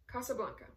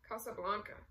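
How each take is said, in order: First: Said in the usual way. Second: Mild groan. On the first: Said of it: "Without hesitation, the Count said". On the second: A narrator's reading. Ossip hears the Count's film choice, mildly groaning. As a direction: groan the title a little. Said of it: "Ossip groaned".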